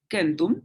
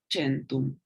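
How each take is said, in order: First: Centum with a hard K sound, kentum; classical Latin centum. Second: Centum with a soft ch sound, chentum; Italian Latin centum. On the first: Teacher repeating classical Latin centum with hard K. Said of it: "la C suena como K en la clásica". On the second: Teacher contrasting: Italian Latin centum said chentum. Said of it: "en la italiana se leería centum". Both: Shown as a demonstration.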